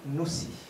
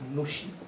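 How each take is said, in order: First: The middle consonant is an 's' sound. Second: The middle consonant is an 'sh' sound. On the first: This is how native speakers usually say it. "On trouvera davantage la prononciation Noussi chez les natifs" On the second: This is how non-native speakers usually say it. "On peut dire Nushi ou Noussi"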